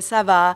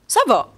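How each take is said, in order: First: The pitch stays level without a peak. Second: The pitch jumps to a sharp peak. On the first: "il y a pas ce pic-là" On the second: "On a comme un pic là, d'intonation"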